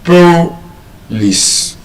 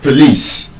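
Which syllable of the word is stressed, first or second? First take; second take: first; second. First: The stress is on the first syllable. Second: The stress is on the second syllable. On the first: The speaker calls it wrong. "if we stress it on the first syllable, it means that word would have been pronounced as what?" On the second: The speaker calls it right. "observe the way I had pronounced it"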